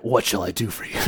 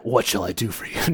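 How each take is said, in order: First: The voice is very deep and heavily gravelly. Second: The voice is very deep and heavily gravelly.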